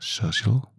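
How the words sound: It is said softly, with English pronunciation. "in English is a little bit soft"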